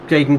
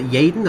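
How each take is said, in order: First: The name begins with an English J sound. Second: The name begins with a Y sound.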